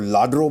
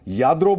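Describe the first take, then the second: First: The word begins with an L sound. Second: The word begins with a Y sound. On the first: No one will find the shop. The speaker calls it wrong. "उसको लाड्रो बोलेंगे, कोई नहीं ढूंढेगा" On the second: Everyone will take you to the shop. The speaker calls it right. "याद्रो बोलेंगे, आपको सब वहाँ ले जाएंगे"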